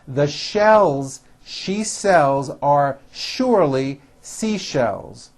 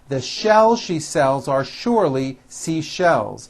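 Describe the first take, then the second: First: It is said at a slower, moderate pace. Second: It is said at a faster pace.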